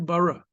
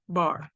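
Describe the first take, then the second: First: A short vowel follows the r at the end. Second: The word ends on the r with no vowel. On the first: The speaker calls it wrong. "You wouldn't say bara" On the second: The speaker calls it right. "They're both pronounced the same way"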